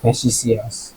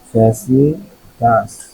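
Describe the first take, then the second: First: The middle consonant is an s sound. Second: The middle consonant is a t sound. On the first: The speaker calls it right. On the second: The speaker calls it wrong. "ফ্যাসিটাস না"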